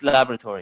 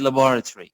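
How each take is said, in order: First: The word is said in an American accent. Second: The word is said in a British accent. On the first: "when you uh, speak in American accent, it's laboratory" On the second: "when your accent is British, it's better to say laboratory"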